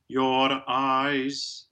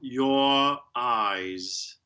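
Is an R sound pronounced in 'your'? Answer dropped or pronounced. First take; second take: pronounced; dropped. First: A flipped R sound is heard after 'your'. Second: No R sound; 'your' ends in a schwa. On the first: "that immediately makes it rhotic" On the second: "Then you would have the J glide, the open O, and the schwa"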